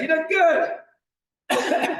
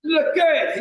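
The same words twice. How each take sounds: First: Drawn-out cheering shout. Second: Said in the usual way. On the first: Real, not acted. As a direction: cheer them on, very slow and big. Coach encouraging class mid-exercise.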